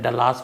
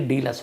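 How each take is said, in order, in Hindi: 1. दूसरा अक्षर 'lass' से तुक मिलाता है। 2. दूसरा अक्षर 'bus' से तुक मिलाता है। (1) "मैंने कई बार शायद डलास बोला था" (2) "लस जैसे बस"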